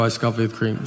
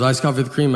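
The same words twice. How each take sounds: First: CREAM low, as a patient answer; deadpan confirmation. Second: CREAM said as a checking question; questioning repeat. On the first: Customer confirming his order to barista, deadpan confirmation. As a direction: repeat the order lower, settling on CREAM. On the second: Barista reading back the coffee order, questioning repeat. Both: Retold or imitated.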